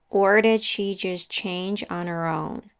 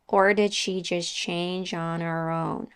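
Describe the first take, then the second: The two takes are said the same way.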